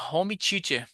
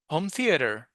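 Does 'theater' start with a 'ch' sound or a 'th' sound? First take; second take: ch; th. First: Theater begins with a ch-like sound. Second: Theater begins with a soft th sound. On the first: The speaker calls it wrong. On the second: The speaker calls it right.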